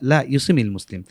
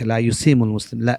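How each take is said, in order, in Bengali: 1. ক্রিয়াপদটি 'i' স্বরবর্ণ দিয়ে শেষ হয়। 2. ক্রিয়াপদটি 'u' স্বরবর্ণ দিয়ে শেষ হয়। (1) "যেহেতু নাহির সিগা এখানে মদ হবে না" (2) "লা ইউসিমও পড়েছে"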